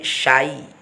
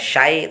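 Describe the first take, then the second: First: The sh sound is clear and breathy. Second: The sh sound is plain and weak. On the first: The speaker calls it right. "tapi syai. Ini harus dijelaskan" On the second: The speaker calls it wrong. "Jangan menjadi syai. Jadi bukan syai"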